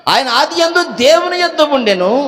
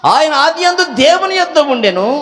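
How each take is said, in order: The two takes are said the same way.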